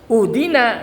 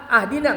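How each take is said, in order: First: The word begins with a u vowel. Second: The word begins with an a vowel. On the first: "Jangan uhdina, enggak boleh" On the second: "ahdina enggak boleh juga"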